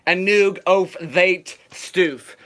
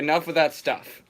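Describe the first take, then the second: First: The vowels are strangely distorted in each word. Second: The words are pronounced in ordinary English. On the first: "You gotta pronounce it like this" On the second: "I'm gonna just say enough of that stuff"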